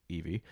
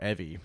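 First: Evie said with a long "ee" at the start; first vowel of Evie as in "eve"; long E pronunciation. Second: Evie said with a short "eh" at the start; first vowel of Evie as in "ever"; short E pronunciation. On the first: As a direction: say Evie as EE-vee. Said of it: "or Evie". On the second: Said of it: "I think it's Evie". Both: Shown as a demonstration.

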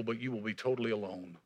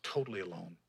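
First: Said in the usual way. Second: "Totally alone" dropped low and much softer; quiet echo. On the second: Shown as a demonstration. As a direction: let "Totally alone" fall to a hush.

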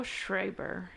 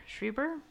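First: Schreiber said as SHRAY-ber; unsure pronunciation. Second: Schreiber said as SHREE-ber, higher and questioning; unsure pronunciation. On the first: Podcaster attempting an actor's name, Schreiber as SHRAY-ber. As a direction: say Schreiber with an "ay" in the first syllable. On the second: Podcaster second-guessing an actor's name, Schreiber as SHREE-ber. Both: Real, not acted. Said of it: "I'm gonna say this name wrong".

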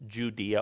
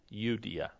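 First: Said in the usual way. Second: "Judea" begun with a Y, not a J; Y-sound pronunciation. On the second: Shown as a demonstration. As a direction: say "Judea" softly as you-DEE-a. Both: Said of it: "or with a Y sound".

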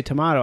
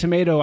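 First: "tomato" with a broad AH, to-MAH-to; the to-MAH-to version of "tomato". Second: "tomato" with a long A, to-MAY-to; the to-MAY-to version of "tomato". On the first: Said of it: "I say tomato". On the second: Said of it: "It's like you say tomato". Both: Shown as a demonstration.

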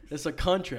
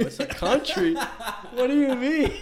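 First: Said in the usual way. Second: Much higher and louder, laughing disbelief, slow at the end; shocked kid. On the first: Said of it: "It's like". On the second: Retold or imitated. Kid learns from grandma that I T is a country, high laughing disbelief. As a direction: squeak it out in baffled laughter. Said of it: "I go".

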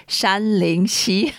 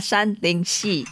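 First: SHANLING SHI drawn out slowly, SHI rising; corrected Chinese pronunciation. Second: SHANLING SHI in the mistaken tones; mispronounced Chinese. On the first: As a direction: slowly demonstrate "Shanling Shi", lifting the end. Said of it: "It's not Shanling Shi. It's". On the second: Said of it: "I even said Chinese wrong. It's not". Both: Shown as a demonstration.

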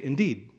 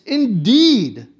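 First: Said in the usual way. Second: Indeed punched loud and high, falling hard; emphatic Indeed. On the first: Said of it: "which is not quite the same". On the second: Shown as a demonstration. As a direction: hit Indeed like six exclamation points. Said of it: "he's making the point here".

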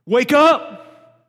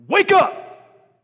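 First: Higher, very loud rousing yell; shout wake up. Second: Much higher, very loud wake-up shout. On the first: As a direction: bark it to snap them out of it. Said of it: "grab somebody by the shoulders and shake 'em". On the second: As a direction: shake someone awake with a yell. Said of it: "grabbing Elijah by the shoulders and going". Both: Acted.

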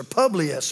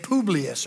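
First: "Publius" with a short u; PUB-lius pronunciation. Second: "Publius" with a long oo; POO-blius pronunciation. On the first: Preacher offers another reading of the name, saying "Publius" as PUB-lee-us. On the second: Preacher tries the island chief's name, saying "Publius" as POO-blee-us. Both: Shown as a demonstration. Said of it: "or Publius or something".

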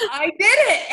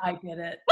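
First: High, loud gleeful confession; emphatic admission. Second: Low, soft confession with a laugh; quiet admission. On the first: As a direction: proclaim it after a burst of laughter. Confession repeated emphatically after laughing. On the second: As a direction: own up under your breath. Sheepish confession, then repeated emphatically. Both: Real, not acted.

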